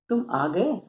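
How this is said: It is said in a happy, pleased tone. The speaker is glad the person came. "ये खुशी की अभिव्यक्ति है।"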